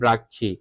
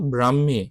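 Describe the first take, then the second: First: The middle consonants sound like 'kkh'. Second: The middle consonants sound like 'hm'. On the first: The speaker calls it wrong. "অনেকে উচ্চারণ করে ব্রাক্ষী, এটা ব্রাক্ষী না" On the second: The speaker calls it right. "উচ্চারণ হবে ব্রাহ্মী"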